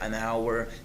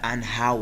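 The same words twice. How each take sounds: First: The h at the start of hour is silent. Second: The h at the start of hour is pronounced. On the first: The speaker calls it right. "h letter is silent here" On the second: The speaker calls it wrong. "this is not"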